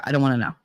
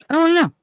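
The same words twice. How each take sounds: First: Said in the usual way. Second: Exasperated. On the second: Real, not acted. Repeats refusal, second take.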